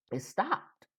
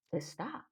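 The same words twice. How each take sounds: First: Said in the usual way. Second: "It stopped" repeated softly, trailing; quiet echo. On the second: Real, not acted. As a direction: let "It stopped" fall away quietly.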